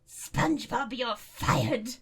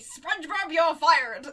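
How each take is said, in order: First: It is said in the speaker's normal voice. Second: It is said in a Mister Krabs voice.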